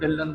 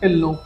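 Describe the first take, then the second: First: The last syllable has a short 'a' vowel. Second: The last syllable has a nasal 'o' vowel. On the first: People adopt the English-influenced form. The speaker calls it wrong. "ਢਿੱਲਨ ਢਿੱਲਨ ਬੋਲਣ ਲੱਗ ਜਾਂਦੇ ਨੇ" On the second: This is the Punjabi surname as used locally. The speaker calls it right. "ਜਿਵੇਂ ਇੱਥੇ ਸਾਡੇ ਜੱਟਾਂ 'ਚ ਹੁੰਦਾ ਢਿੱਲੋਂ"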